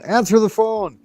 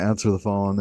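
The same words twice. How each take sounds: First: Very high parrot command; parrot imitation. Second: Said in the usual way. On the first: Parrot ordering people to the phone, high imitation. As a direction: call it high like a mimicking parrot. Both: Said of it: "they repeat what they hear".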